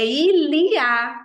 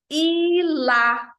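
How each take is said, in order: First: "il y a" slow and loud, the y said as i; pronounced il y a. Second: "Il a" crisp, higher, no i sound; pronounced il a. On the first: Teacher showing students the y sounds like i, slow and loud. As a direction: stretch "il y a", the y like an i. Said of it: "Esse Y tem som de I". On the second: Teacher contrasting with il y a, crisp and higher. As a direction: say "Il a" short, no y. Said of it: "enquanto que o ele tem". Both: Shown as a demonstration.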